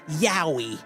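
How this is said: It is said in a deep put-on voice. It imitates how someone else says it. "Why deep voice? Because Connor V A says it that way"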